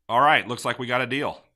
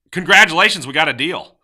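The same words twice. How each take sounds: First: Said in the usual way. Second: Loud, high, celebratory burst; thrilled, raised-voice congratulations; excited congratulations. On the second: Shown as a demonstration. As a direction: announce the deal like a big win. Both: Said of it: "So tone".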